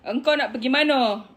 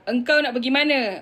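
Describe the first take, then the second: First: It is said in Bengkulu regional Malay. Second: It is said in Kuala Lumpur colloquial Malay. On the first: "bahasa Melayu orang Bengkulu dia cakap" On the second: "engkau nak pergi mana tu macam bahasa K L"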